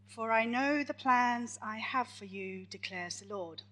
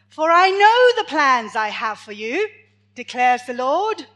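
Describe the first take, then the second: First: It is read at a normal, quieter volume. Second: It is read noticeably louder.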